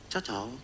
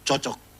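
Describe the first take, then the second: First: It is said in a questioning, doubtful way. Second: It is said in an approving, pleased way. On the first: It asks whether it fits or not. "Itu dia ada tanya itu, cocok atau tidak?" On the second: The things really fit together well. "Pas, klop itu, serasi, bagus itu, mantap"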